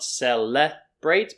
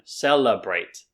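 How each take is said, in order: First: The second syllable has a full E vowel. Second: The second syllable has a weak uh vowel. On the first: The speaker calls it wrong. "So not celebrate" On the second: The speaker calls it right. "It's that same uh sound"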